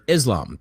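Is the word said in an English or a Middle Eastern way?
English. It is said with an English-speaking pronunciation. "That's how you say it when you're an English speaking person"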